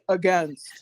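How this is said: Against is said with an American pronunciation. The speaker calls it wrong. "All of you guys from the U S say against"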